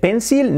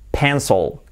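First: It is spoken with Spanish-style pronunciation. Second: It is spoken with English-style pronunciation. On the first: The speaker calls it wrong. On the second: The speaker calls it right.

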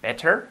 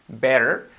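First: The t sounds like a clear, full t. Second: The t sounds like a soft, quick r. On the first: The speaker calls it wrong. "suena bien, pero con la T así de esa forma nos queda mucho más real" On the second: The speaker calls it right. "que la convertimos en una R suave"

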